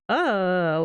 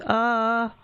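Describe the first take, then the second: First: The pitch falls downward throughout. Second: The pitch stays level throughout.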